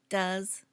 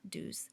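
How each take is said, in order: First: The vowel is short, like in 'up'. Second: The vowel is long, like in 'do'. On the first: The speaker calls it right. "Notice the pronunciation does" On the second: The speaker calls it wrong. "not do's"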